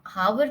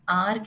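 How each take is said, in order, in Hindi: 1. इस शब्द की शुरुआत में 'h' की आवाज़ सुनाई देती है। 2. इस शब्द की शुरुआत स्वर से होती है, 'h' नहीं। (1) "उसको आप हावर नहीं प्रोनाउंस करते हैं" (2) "उसको आप आर कहते हैं"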